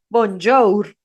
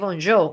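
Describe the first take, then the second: First: The final R is pronounced. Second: The final R is silent. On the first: This is how the word is written. "se escribe bonjour" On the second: This is how the word is actually said. "pero se dice bonjour. O sea, al final nunca se suena, nunca suena la R"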